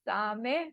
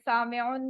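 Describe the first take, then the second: First: The word ends without a final -un sound. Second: The word ends with a final -un sound. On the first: "क्योंकि वो दोनों साइलेंट करेंगे ना तो बोला नहीं जाएगा।" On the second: "इसको भी कह सकते हैं"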